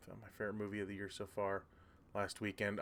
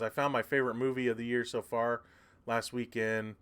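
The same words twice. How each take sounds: First: Quick, much softer mumbled reread; rereading to oneself. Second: Said in the usual way. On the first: Real, not acted. Streamer rereading a viewer's comment to himself, quiet and quick. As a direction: read it back quickly under your breath.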